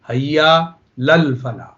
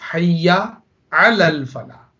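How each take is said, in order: First: The vowel before 'lal' is dropped entirely. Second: The vowel before 'lal' is clearly pronounced. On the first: The speaker calls it wrong. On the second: The speaker calls it right.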